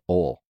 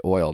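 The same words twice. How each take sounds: First: "ol" as one swallowed syllable; Southern "ol". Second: Said in the usual way. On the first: Shown as a demonstration. Showing how Southerners say oil, "ol" swallowed into one syllable. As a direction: say "ol" with no y glide, Alabama style. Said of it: "They say". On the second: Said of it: "they don't say oil".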